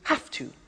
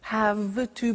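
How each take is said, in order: First: The word have ends with an f sound. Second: The word have ends with a v sound.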